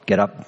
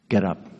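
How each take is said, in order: First: It is said in a harsh, stern tone. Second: It is said in a gentle, kind tone. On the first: The listener is being ordered about. The speaker calls it wrong. "sounds a little harsh" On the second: The listener is being helped and comforted. The speaker calls it right. "He spoke it in kindness"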